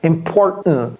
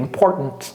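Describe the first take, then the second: First: The middle t is swallowed, not released. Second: The middle t is clearly pronounced. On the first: "Vous avalez le T en fait" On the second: "Et vous pouvez prononcer ça si vous voulez"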